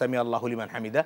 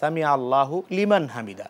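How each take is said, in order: First: Allahu and liman run together without a break. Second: Allahu and liman are said as separate words. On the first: "একসাথে যখন পড়ছি" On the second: "আমরা যখন লিখছি"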